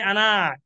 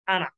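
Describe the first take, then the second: First: The final vowel is drawn out long. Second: The final vowel is kept short. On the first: The speaker calls it wrong. "not allowed to say Ana" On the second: The speaker calls it right. "This Alif silent"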